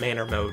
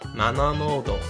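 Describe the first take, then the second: First: It is said with a plain English accent. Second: It is said with a Japanese accent.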